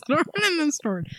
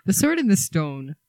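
First: "Stone" garbled as "Stord", pitched high; mangled title. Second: Said in the usual way. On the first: Pretend. Host teasing cohost's slip, "Stone" said as "Stord" in a squeak.

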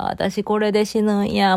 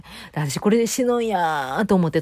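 First: Slow, resigned thought "私これで死ぬんや"; accepting death calmly, slowly. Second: Said in the usual way. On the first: Retold or imitated.

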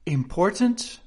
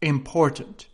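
First: "Important" pitched high, rising like a question; trying the word. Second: "important" at usual pitch, as an answer; trying the word. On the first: King muttering options to himself, "Important" rising questioningly. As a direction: test "Important" with a questioning lift. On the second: King comparing words to himself, "important" as a settled answer. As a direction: settle on "important" without a questioning lift. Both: A narrator's reading. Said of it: "trying which word sounded best".

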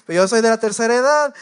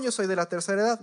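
First: Louder, higher-pitched insistence, stretching "edad"; mock indignant yell. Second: Mock entitled claim. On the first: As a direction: shout "tercera edad" to demand priority. (grito indignado, más fuerte y agudo) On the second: (reclamo indignado pero sin gritar) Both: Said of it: "No era de la tercera edad".

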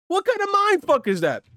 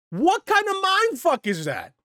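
First: Much higher incredulous cry. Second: High, slow incredulous cry; stunned disbelief, drawn out high. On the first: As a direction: disbelief pushed even higher. Repeats outraged question. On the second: Outraged rhetorical question. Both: Real, not acted.

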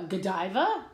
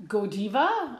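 First: Godiva said go-DYE-vuh, long "eye" in the middle; first pronunciation of "Godiva", go-DYE-vuh; Godiva one way. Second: Godiva said GO-dee-vuh, "oh" first, "ee" in the middle; second pronunciation of "Godiva", GO-dee-vuh; Godiva the other way. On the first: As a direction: try "Godiva" with the middle rhyming with "dive". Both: Shown as a demonstration. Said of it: "I don't know".

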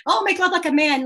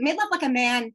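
First: Laughing through the song title; amused, words riding on a laugh. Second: Said in the usual way. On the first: Real, not acted. Guest repeats the song title to the host, laughing.

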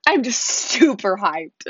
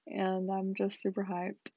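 First: Louder and slower, pushing the hype; louder, hyped. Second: Says hyped with zero energy; flat, unexcited. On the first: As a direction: forces some excitement into it. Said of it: "I don't sound ... like I'm hyped". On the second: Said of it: "it does not sound like I'm hyped". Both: Real, not acted.

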